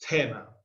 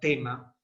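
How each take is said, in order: First: The first consonant is a Greek-style aspirated t. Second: The first consonant is a plain t. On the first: The speaker calls it wrong. "y no tema" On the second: The speaker calls it right. "vamos a pronunciar tema"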